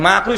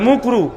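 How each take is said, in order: First: The first vowel is an open 'a' sound. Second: The first vowel is a rounded 'u' sound. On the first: The speaker calls it right. "মাকরু শব্দ হুজুর ঠিক করে বলে না" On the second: The speaker calls it wrong. "বলে মুকরু, কারণ এমন ভাবে বলে যেন মানুষ বুঝতে না পারে"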